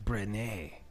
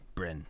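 First: The name ends with a sounded final vowel. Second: The name ends on the consonant, no final vowel. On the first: "would be a like more French sounding" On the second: "You don't say the E at the end?"

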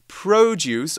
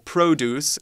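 First: It is said in a non-American accent. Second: It is said in an American accent.

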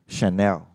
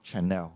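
First: It begins with a soft sh sound. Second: It begins with a hard ch sound. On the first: The speaker calls it right. "Another example is Chanel" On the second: The speaker calls it wrong. "Not Chanel"

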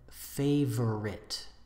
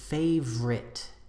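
First: The word is said with three syllables. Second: The word is said with two syllables. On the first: "instead of favorite" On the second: "So we usually say favorite"

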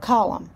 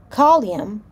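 First: No extra sound is added after the l. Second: An extra sound is added after the l. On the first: The speaker calls it right. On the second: The speaker calls it wrong.

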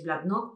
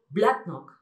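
First: The stress is on the last syllable. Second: The stress is on the first syllable. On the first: The speaker calls it wrong. "Muchos diréis Blacknock porque estamos acostumbrados" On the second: The speaker calls it right. "pero realmente se pronuncia Blacknock"

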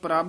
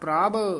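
First: The word ends in a plain b sound. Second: The word ends in a breathy bh sound. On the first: The speaker calls it wrong. "ਇਹਨਾਂ ਨੂੰ ਪ੍ਰਭ ਨਹੀਂ ਕਹਿਣਾ" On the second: The speaker calls it right. "ਬੱਬੇ ਨਾਲ ਭੱਬੇ ਨਾਲ ਉਚਾਰਨ ਕਰਨਾ ਹੈ"

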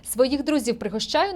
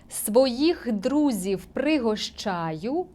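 First: The line is read at a fast pace. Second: The line is read at a slow pace. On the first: "Пробую читати швидше" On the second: "Читаю тепер повільно"

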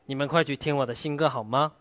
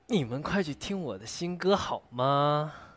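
First: The line is said in a cute, mock-fierce tone. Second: The line is said in a whiny, coaxing tone. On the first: "奶凶，奶凶。" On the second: "撒娇"

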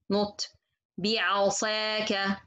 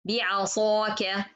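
First: The alif is pronounced light and thin. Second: The alif is pronounced heavy and full. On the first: The speaker calls it wrong. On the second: The speaker calls it right. "This is should to be heavy"

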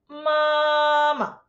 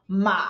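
First: The pitch stays high and level throughout. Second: The pitch dips down and then rises. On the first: "the first tone very high pitch... it's very flat" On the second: "you go down, then you go up. That's the third tone in Chinese"

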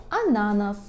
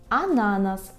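Both takes have the same delivery.

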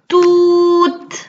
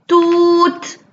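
The two takes are said the same way.

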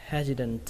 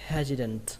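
The two takes are said the same way.

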